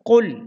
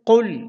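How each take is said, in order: First: The first consonant is a deep back q. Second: The same.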